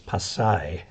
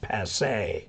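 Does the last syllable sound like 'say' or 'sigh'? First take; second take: sigh; say. First: The last syllable sounds like 'sigh'. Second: The last syllable sounds like 'say'. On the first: This is the local pronunciation. The speaker calls it right. "but it's Pasay" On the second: This is how foreign residents say it. The speaker calls it wrong. "all the American expats there call it Pasay"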